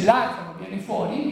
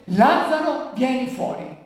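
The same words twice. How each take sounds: First: Said in the usual way. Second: Lazzaro called higher and louder, fuori falls back. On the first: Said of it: "Gesù dice". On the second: A narrator's reading. Preacher rereading Jesus calling Lazarus out, raised call. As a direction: summon him out with a raised voice. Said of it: "gridò a gran voce".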